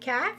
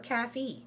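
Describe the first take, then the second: First: It is one syllable with no final vowel. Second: It is two syllables ending in a vowel.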